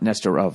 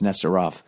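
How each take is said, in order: First: The last syllable ends in a soft v sound. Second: The last syllable ends in a clear f sound. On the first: The speaker calls it wrong. "It's not Nestor of" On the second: The speaker calls it right. "It's Nestor off"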